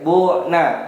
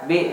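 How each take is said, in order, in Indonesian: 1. Vokal pertama adalah u. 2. Vokal pertama adalah i. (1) "itu lebih baik bu'na" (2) "boleh juga dibaca bi"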